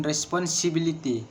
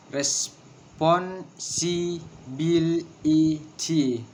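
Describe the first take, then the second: First: Said in the usual way. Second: "Responsibility" very slowly, broken into syllables. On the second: Shown as a demonstration. Teacher counting out six syllables, syllable by syllable. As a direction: hold each syllable apart. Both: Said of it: "six syllables".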